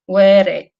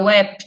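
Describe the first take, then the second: First: The word ends with a full final syllable. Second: The final syllable drops, ending in unreleased p. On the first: This is the word on its own. "Tem a palavra were" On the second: This is the word inside a sentence. "a última sílaba cai e aí entra o P não explodido"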